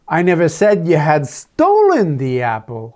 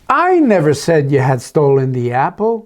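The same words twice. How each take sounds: First: The word "stolen" carries the stress. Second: The word "I" carries the stress. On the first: It was taken, not stolen. "Oh, I just said you had taken it, thinking it was yours" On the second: Someone else made the accusation. "Oh, maybe it's Esther that did"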